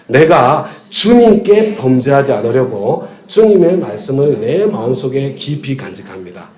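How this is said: The stress is on 주님께.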